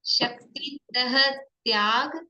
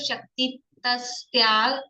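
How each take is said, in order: First: The visarga is pronounced as an h sound. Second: The visarga is pronounced as an s sound. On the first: The speaker calls it right. "शुद्ध कर लें।" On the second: The speaker calls it wrong. "वो विसर्ग का आधा से बना देते हैं"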